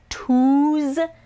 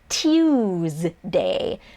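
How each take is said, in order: First: The first vowel has no y sound before it. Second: The first vowel has a y sound before it. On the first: The speaker calls it wrong. "you might think that Tuesday is pronounced Tuesday if you sound it out" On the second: The speaker calls it right. "It's actually Tuesday. There's like a little Y in there"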